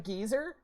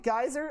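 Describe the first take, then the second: First: The first vowel sounds like 'ee'. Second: The first vowel sounds like 'eye'.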